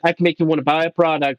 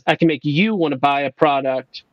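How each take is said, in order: First: The word you gets no special emphasis. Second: The word you is strongly emphasized. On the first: "instead of saying" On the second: "he emphasizes the word you"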